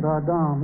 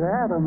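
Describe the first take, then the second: First: "Adam" as ah-DAHM with open a's; "Adam" in Hebrew, both vowels ah; Hebrew pronunciation. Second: "Adam" as the English name, AD-um; "Adam" the plain English way; name pronunciation. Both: Shown as a demonstration. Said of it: "If you pronounce it Adam".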